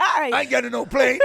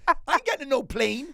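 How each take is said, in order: First: High, loud Scouse whine through laughter; mock Scouse kid. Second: Put-on high Scouse kid refusing, laughing; mock Scouse kid. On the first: Host mocks kids refusing a plane, Scouse accent. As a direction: play a stroppy Liverpool kid refusing. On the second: Host repeats kid's refusal in Scouse accent. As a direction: repeat the stroppy Liverpool kid line. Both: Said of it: "It's your kids in a Scouse accent".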